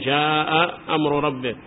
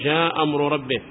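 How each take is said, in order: First: Both glottal stops are pronounced. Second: The first glottal stop is dropped. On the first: "ما يقول جاء أمر ربك" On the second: "فالهمزة الأولى يسقطونها للتخفيف ويبقون الثانية"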